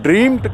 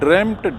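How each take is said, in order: First: The vowel is a long ee sound. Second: The vowel is a short e sound. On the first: The speaker calls it wrong. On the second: The speaker calls it right.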